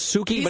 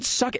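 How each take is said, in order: First: The first vowel is long, as in 'soo'. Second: The first vowel is short, as in 'suck'. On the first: The speaker calls it right. "But her name is Suki" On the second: The speaker calls it wrong. "He pronounces it Sucky"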